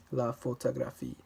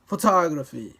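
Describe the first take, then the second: First: "la photographie" level, no syllable punched; unstressed French syllables. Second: "photography" with TOG punched very loud; stress on second syllable. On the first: Showing French without stressed syllables, evenly weighted. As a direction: keep every syllable of "la photographie" equal. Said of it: "you don't stress any particular syllable". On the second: Exaggerating the English stress against French, second syllable forceful. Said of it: "say the second syllable with more force". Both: Shown as a demonstration.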